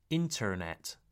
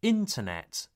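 First: INTERNET as 'in-terr-net'; sounded R. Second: INTERNET as 'in-tuh-net'; no R in the middle of Internet; non-rhotic. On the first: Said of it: "not internet". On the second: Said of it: "It's like an uh sound". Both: Shown as a demonstration.

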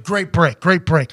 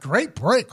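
First: Quick crew congratulation, mildly voiced; matter-of-fact pat on the back; imitated crew praise. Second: Mildly incredulous questioning echo; mock bafflement at the compliment; baffled echo. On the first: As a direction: imitate a producer handing out praise. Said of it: "they're like". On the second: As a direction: repeat the praise as if puzzled by it. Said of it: "I'm like".

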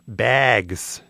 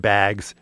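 First: "bags" with a put-on Midwestern vowel; Midwestern accent. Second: Said in the usual way. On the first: Shown as a demonstration. Cornhole player naming the game, Midwestern accent. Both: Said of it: "Is that a good Midwestern accent?".

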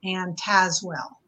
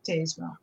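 First: "Tazewell" with a short flat A, as in "jazz"; correct pronunciation. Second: "Tazewell" with a long A, as TAZE-well; spelling pronunciation. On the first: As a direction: say "Tazewell" as TAZ-well, silent E. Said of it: "it's actually pronounced". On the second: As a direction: say "Tazewell" to rhyme its first syllable with "daze". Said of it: "it's spelled like Tazewell". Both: Shown as a demonstration.

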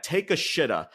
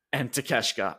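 First: "Take a shitta" said as three separate words, "shitta" like "shit-ah"; joke mispronunciation. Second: Said in the usual way. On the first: Shown as a demonstration. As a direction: mangle the name into "Take a shitta", deadpan. Jokingly mangles wrestler's name.

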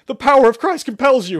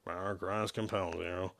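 First: Very high, loud shouted chant; shouting much louder. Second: Low, very soft, slurred mumble. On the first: Shepard chants at gunpoint, shouting. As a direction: shout the chant at the top of your voice. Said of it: "much more loudly". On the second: Shepard grudgingly joins the priest's chant, mumbling. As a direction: mumble it reluctantly under your breath. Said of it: "Shepard mumbled the phrase". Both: Acted.

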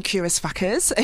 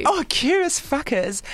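First: Said in the usual way. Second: Savoring the phrase. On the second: Real, not acted. Savouring the phrase.

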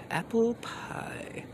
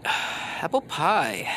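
First: Breathy high whisper. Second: Said in the usual way. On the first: Pretend. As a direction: whisper it softly. Repeated, whispered.

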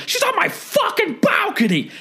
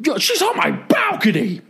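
First: Even higher, over-the-top screech; screaming neighbor. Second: High, hammed-up screeching neighbor; screaming neighbor. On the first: Retold or imitated. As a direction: push the outrage to a shriek. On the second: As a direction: shriek it like an outraged guy. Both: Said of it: "Just screaming".

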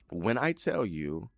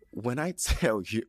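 First: Said in the usual way. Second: Amused, giggle mid-phrase; laughing. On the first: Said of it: "I'm not trying to be funny". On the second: Real, not acted. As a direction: laugh breaking into the words. Laughs while starting her point.

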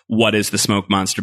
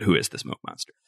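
First: Said in the usual way. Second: "Who" stressed, low and quiet; "Who is the smoke monster?" lower, softer, ominous "Who". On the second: Shown as a demonstration.

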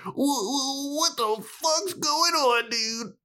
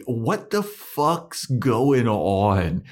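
First: Very high squeaky fake whimper; mock freak-out. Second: Hammed-up slow, drawn-out disbelief, pitched up; mock bewilderment. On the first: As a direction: wail it slowly in a tiny, hammed-up falsetto. Acting out Buffy's escalating confusion. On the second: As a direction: stretch out every word in exaggerated confusion. Acting out Buffy's bewilderment.

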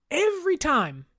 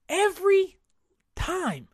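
First: Said in the usual way. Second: Every pitched high and punched, time dropping off; stress on every. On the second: Shown as a demonstration. Host repeating every time to stress it. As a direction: lean hard on every, then let time fall.

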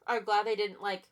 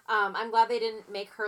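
First: Talking around a burp; words broken by a burp. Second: Said in the usual way. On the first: Real, not acted. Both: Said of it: "excuse me, I'm burping a lot".

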